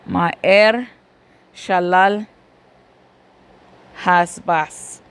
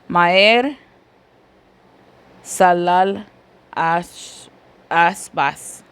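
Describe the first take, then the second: First: The second word begins with an sh sound. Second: The second word begins with a plain s sound. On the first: The speaker calls it right. "para el champú, ya me acordé de la palabra champú" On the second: The speaker calls it wrong. "En español creo que se debe de pronunciar así"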